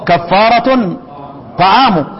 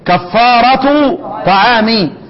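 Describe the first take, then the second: First: Nunation on the first word, final u on second. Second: No nunation on the first word, final i on second. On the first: The food is itself the expiation, in apposition. "من رفع ونون كفارة" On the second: The expiation consists of feeding, a genitive construction. "هيبقى اللي معانا ايه؟"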